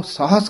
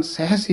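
First: ਸਾਹਸ with an open a vowel; open-vowelled ਸਾਹਸ; saahas. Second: ਸਹਿਸ with an e-coloured vowel; sehs. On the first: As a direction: say ਸਾਹਸ as "saahas", not "sehs". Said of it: "ਇਸ ਕਰਕੇ ਸਹਿਸ ਹੀ ਬੋਲਣਾ ਹੈ". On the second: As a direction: say ਸਹਿਸ as "sehas". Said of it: "ਇਹ ਉਚਾਰਨ ਸਹਿਸ ਹੀ ਕਰਾਇਆ ਜਾਂਦਾ". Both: Shown as a demonstration.

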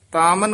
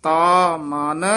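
First: "ਤਾ ਮਨ" fast, run together as one word; hurried "ਤਾ ਮਨ" with no gap; wrong joined words. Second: Slow "ਤਾ ਮਨ", two distinct words; long-held, spaced "ਤਾ ਮਨ"; separated words. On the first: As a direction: merge "ਤਾ ਮਨ" quickly. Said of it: "ਇਕੱਠਾ ਨਹੀਂ ਕਹਿ ਦੇਣਾ". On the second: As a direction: draw out "ਤਾ", then say "ਮਨ" apart. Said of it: "ਤਾ ਮਨ ਇਕੱਠਾ ਨਹੀਂ". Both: Shown as a demonstration.

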